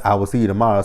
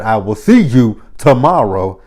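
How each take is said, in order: First: Said in the usual way. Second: "SEE YOU" punched louder, "tomorrow" slowly spaced out; firm emphatic repeat. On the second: Retold or imitated. Boss shutting down his staff's question, firm and emphatic.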